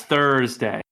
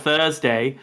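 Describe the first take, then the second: First: "Thursday" with a strong, pronounced R; hard American R. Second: "Thursday" with the R dropped, Australian-style; Australian R-less pronunciation. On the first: Showing the actress's trick for an American accent, hard R in Thursday. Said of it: "I just gotta hit the hard R". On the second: Showing how the actress would normally say it, R-less Thursday. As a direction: leave out the R sound in "Thursday". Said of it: "she says, "Thursday". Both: Shown as a demonstration.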